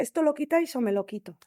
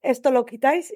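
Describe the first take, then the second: First: Frantic ultimatum. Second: Frantic demand. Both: Retold or imitated. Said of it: "me puse como una loca".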